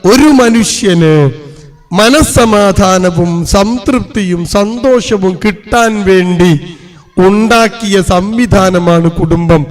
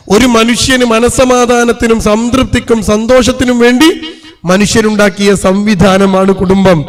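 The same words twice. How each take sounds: First: Each word laid out slowly; measured preacher's definition. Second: Said in the usual way. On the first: Shown as a demonstration. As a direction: spell it out slowly so they remember. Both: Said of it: "ഞാൻ പറഞ്ഞുതരാം".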